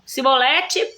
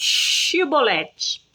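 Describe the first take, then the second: First: The word begins with an s sound. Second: The word begins with a sh sound. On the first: The speaker is revealed as one of the enemy. The speaker calls it wrong. "o sotaque deles não permitia sair o C H" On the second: This is the required password form. The speaker calls it right. "Ele mandava falar chibolete"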